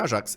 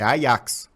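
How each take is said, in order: First: Said with a Brazilian Portuguese pronunciation. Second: Said with a Dutch pronunciation. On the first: The speaker calls it wrong. "o Ajax não é Ajax" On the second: The speaker calls it right. "é Ajax"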